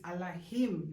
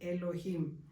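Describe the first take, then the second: First: The word begins with an 'ah' vowel. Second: The word begins with an 'eh' vowel. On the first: The speaker calls it right. "it's Allahim" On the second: The speaker calls it wrong. "not Elohim"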